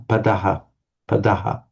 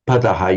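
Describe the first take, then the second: First: Padaha with pa unstressed, stress on da; stress after prefix. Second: Padaha stressed on its first syllable, pa. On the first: Teacher showing the prefixed word, padaha stressed on da. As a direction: keep pa light and lean on the da in padaha. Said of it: "because it is a prefix, you tend to say". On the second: Teacher showing the word on its own, padaha stressed on pa. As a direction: hit the opening pa of padaha. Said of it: "put the stress on the first". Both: Shown as a demonstration.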